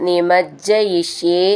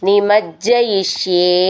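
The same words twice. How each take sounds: No difference in how they are said.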